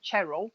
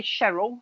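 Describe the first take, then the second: First: "Cheryl" said with a hard CH at the start, CHERR-ul; "Cheryl" as CHERR-ul, crisp ch onset. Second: "Cheryl" said with a soft SH at the start, SHERR-ul; "Cheryl" as SHERR-ul, gentle sh onset. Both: Shown as a demonstration. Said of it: "I never know whether to say Cheryl or Cheryl".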